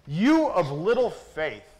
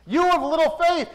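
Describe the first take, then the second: First: Said in the usual way. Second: "You of little faith" said louder and higher, pressing on "of"; preacher echoing the words with force; raised rebuke. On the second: Shown as a demonstration.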